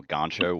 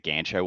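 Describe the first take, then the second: First: "gancho" with the A as in father; gancho with broad A. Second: "gancho" with the A as in cat; gancho with short A. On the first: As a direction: say "gancho" with an open back A, gahn-cho. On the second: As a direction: say "gancho" with a flat front A, gan-cho. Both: Shown as a demonstration. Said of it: "the pronunciation of the A".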